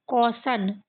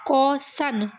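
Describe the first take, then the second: First: Said in the usual way. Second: कॉसन parted into कॉ and सन; sounding out. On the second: Shown as a demonstration. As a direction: pitch up slightly and separate the two syllables of कॉसन. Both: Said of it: "ये कॉ है".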